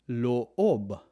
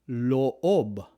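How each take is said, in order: No difference in how they are said.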